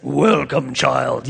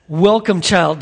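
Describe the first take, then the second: First: Lightly voiced deep lion, slow and grand; a hint of the movie's Aslan greeting the girl. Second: Said in the usual way. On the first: Preacher mimics film Aslan greeting Lucy, a lightly voiced lion. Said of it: "I don't know how they can get your voice out". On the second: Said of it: "but, like, in the movie".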